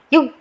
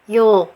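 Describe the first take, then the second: First: The final consonant sound is stopped and held. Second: The final consonant sound flows out continuously. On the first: The speaker calls it wrong. "jangan yug" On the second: The speaker calls it right. "harus dialirkan saja"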